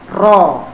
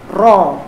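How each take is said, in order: First: The r is trilled strongly with many tongue taps. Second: The r is trilled strongly with many tongue taps.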